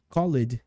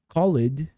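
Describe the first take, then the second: No difference in how they are said.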